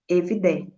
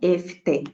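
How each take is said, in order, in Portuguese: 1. A palavra tem o som 'd' sonoro. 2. A palavra tem o som 't' surdo. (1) "na casa seria evde" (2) "e não efte"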